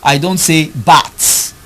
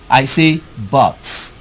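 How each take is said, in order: First: The vowel is said with the mouth too open. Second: The vowel is said with lips spread, less open. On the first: The speaker calls it wrong. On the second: The speaker calls it right.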